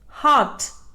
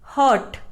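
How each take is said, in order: First: The r sound is silent. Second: The r sound is pronounced. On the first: The speaker calls it right. "The correct pronunciation is heart. R is silent" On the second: The speaker calls it wrong. "It is mispronounced as hurt"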